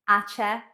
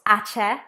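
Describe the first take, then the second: The two takes are said the same way.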